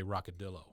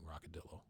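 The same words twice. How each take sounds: First: Lightly voiced laid-back Texan star; Matthew McConaughey. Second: Matthew McConaughey. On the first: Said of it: "hear Matthew McConaughey just say". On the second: Retold or imitated. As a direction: breathe it out soft and lazy. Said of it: "he'd be very good at saying".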